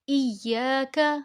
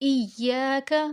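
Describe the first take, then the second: The two takes are said the same way.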